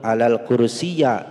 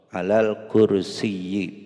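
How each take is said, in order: First: The last word ends in an a sound. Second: The last word ends in an i sound. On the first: The speaker calls it wrong. "itu salah" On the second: The speaker calls it right. "akhirnya harus dibaca yi"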